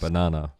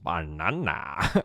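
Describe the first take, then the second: First: It is said flatly, without enthusiasm. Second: It is said with lively enthusiasm.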